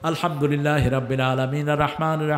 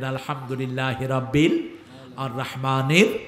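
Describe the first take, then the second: First: It is recited quickly without pauses between phrases. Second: It is recited slowly with pauses between phrases. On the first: The speaker calls it wrong. "তুমি দৌড়াও কেন?" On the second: The speaker calls it right. "আস্তে আস্তে পড়তেন"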